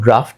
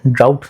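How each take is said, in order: First: The word is pronounced 'draft', with an f. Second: The word is pronounced 'drowt', ending in t. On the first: The speaker calls it right. "इसका pronunciation ड्राफ्ट है" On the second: The speaker calls it wrong. "ड्राउट नहीं बोलेंगे इसको"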